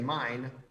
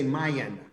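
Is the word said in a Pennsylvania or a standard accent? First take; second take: standard; Pennsylvania. First: The vowel is a short, single 'eye' sound. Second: The vowel is drawn out into two parts, 'my-an'. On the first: "instead of saying mine" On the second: "in Pennsylvania, we say mayan"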